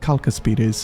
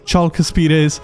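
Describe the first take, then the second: First: The word begins with a k sound. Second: The word begins with a ch sound. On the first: The speaker calls it right. "C is uh, basically pronounced as a K, so it's actually Calcaspides" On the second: The speaker calls it wrong. "I used to pronounce them as Chalcaspides"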